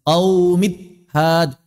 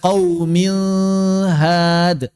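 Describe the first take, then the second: First: The nasal n sound is completely dropped. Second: The n is blurred toward an l sound. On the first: "hilang gunnahnya seratus persen" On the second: "Jangan disamarkan"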